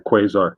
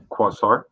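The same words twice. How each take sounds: First: Quasar said "KWAY-zar"; first syllable of Quasar rhymes with "way"; Quasar with long A. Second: Quasar said "KWAH-sar"; own pronunciation of Quasar. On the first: Host correcting himself on the name, long-A Quasar. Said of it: "I'm pronouncing it wrong". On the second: Host showing how he pronounces it, KWAH-sar Quasar. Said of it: "'Cause I pronounce it". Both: Shown as a demonstration.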